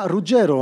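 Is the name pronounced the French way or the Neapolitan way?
Neapolitan. The name has a Neapolitan Italian pronunciation. "Ruggiero en napolitain"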